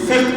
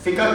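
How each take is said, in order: First: The word ends plainly on the k sound. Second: The word ends with an added 'ah' sound. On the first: The speaker calls it right. "ફિક કેવું પડે" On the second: The speaker calls it wrong. "ફિકહ કેવું ખોટું છે"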